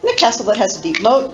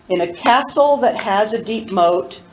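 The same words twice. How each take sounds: First: It is recited at the fastest speed. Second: It is recited a little faster.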